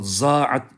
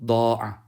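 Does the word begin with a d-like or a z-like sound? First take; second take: z-like; d-like. First: The word begins with a z sound. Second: The word begins with a d sound. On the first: The speaker calls it wrong. "Buna za'at demeyelim. Yanlış bu. Za'at dersek o zaman Farsça telaffuz olur" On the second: The speaker calls it right. "Dattır bu"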